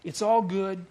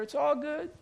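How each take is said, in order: First: An easy shrug of a line; mocking a feel-good slogan; breezy mock reassurance. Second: It's all good pitched much higher with a rising end; sing-song the word all, high and lifting; an airy, mocking sing-song. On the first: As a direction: toss it off like a bumper sticker. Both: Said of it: "He'd say".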